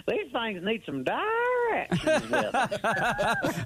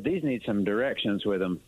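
First: Mocking how the cashier heard his Southern accent; hammed-up Southern accent. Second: Said in the usual way. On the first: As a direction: stretch every word like a cartoon Southern yokel. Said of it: "Like you jumped out of Hee Haw". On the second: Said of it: "She heard".

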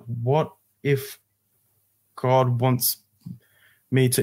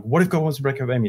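First: Halting, with long gaps between phrases; slowing realisation. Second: Quick run-together repeat; hurried question, repeated under pressure; rapid repeating. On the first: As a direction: let it dawn on you phrase by phrase. The repeated words begin to click. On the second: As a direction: rattle it off without a break. Forced to repeat it in panic. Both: Retold or imitated.

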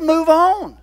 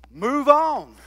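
First: Much higher and louder, a ringing "Move on"; God's repeated order to move on, now booming; booming command. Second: Higher, stressing on; God telling Moses to move the Israelites on; firm command. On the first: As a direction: ring it out as the final order. God's command, repeated more strongly. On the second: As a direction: state it firmly, the first time. God's command, repeated right after. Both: Acted.

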